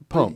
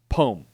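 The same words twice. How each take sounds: First: The second vowel is only lightly touched. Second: The second vowel is drawn out heavily. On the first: The speaker calls it right. "It's it's it just like touches it" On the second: The speaker calls it wrong. "I'm not saying like poem"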